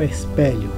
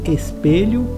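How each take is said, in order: First: The stressed E vowel is open. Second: The stressed E vowel is closed. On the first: The speaker calls it wrong. "e não" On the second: The speaker calls it right. "O correto seria"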